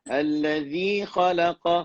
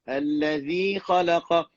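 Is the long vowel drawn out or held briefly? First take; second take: briefly; briefly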